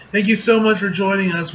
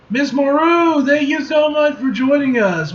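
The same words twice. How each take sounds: First: Said in the usual way. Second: High, excited host greeting; gushing welcome. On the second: Acted. Host welcoming Storm, gushing and high. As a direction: gush it like a starstruck host.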